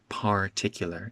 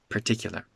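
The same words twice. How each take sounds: First: The first syllable has a full vowel. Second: The first syllable is reduced to 'per'. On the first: The speaker calls it wrong. "It's not particular" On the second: The speaker calls it right. "It's per"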